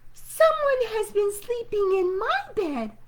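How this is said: It is said in a wee small voice.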